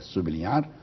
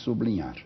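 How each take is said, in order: First: The b ends the first syllable, apart from l. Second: The b and l form one cluster. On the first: This is the standard form in Brazil. "a norma exemplar é sublinhar" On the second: This is how it is said in Portugal. "em Portugal só se diz sublinhar"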